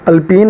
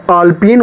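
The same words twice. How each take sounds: First: अल्पीन with a short a at the start; wrong pronunciation. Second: आल्पीन with a long aa at the start; correct pronunciation. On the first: Teacher warns the class off अल्पीन with a short a. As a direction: clip the first vowel of अल्पीन short. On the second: Teacher gives the class the correct आल्पीन, long aa. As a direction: open आल्पीन on a long first vowel. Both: Shown as a demonstration. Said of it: "अल्पीन नहीं होता है".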